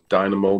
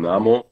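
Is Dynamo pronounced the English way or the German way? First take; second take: English; German. First: The name is pronounced the English way. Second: The name is pronounced the German way.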